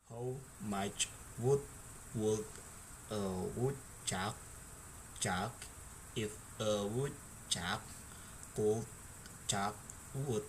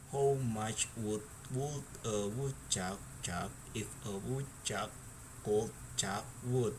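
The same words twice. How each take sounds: First: It is said at a slow speed. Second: It is said at a normal speed.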